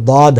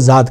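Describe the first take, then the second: First: The word starts with a heavy d-like sound. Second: The word starts with a z-like sound. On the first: The speaker calls it right. "जबकि दाद है" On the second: The speaker calls it wrong. "जाद को जाद कह देते हैं"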